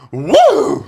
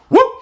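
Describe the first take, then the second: First: It is a big, showy crowd woo. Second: It is a smaller, quieter woo.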